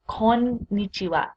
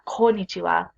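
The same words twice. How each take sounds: First: The middle n sound is doubled and held. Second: The middle n sound is short and single. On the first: The speaker calls it right. "There's two N's, so you want to be clear on the kon and then nichiwa" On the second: The speaker calls it wrong. "Not konnichiwa"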